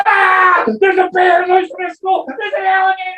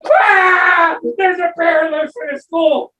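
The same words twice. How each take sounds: First: High frantic yelling of the alarm; panicked shout. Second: High frantic alarm yelled out; panicked shout. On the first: Teacher screaming to the class about a bear. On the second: Teacher shouting the bear alarm again. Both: Acted.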